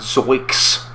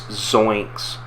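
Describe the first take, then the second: First: No n sound comes before the k. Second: An n sound comes before the k. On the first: The speaker calls it wrong. "not zoiks" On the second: The speaker calls it right. "It's zoinks"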